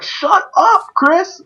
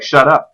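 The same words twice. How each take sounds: First: High-pitched squawked mock yell. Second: Mild retold yell; Parasite. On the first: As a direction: imitate a teammate yelling, voice pitched way up. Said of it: "they yell, like, at the top of their lungs". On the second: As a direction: imitate a yell, only slightly raised. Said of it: "then he yells when he's like".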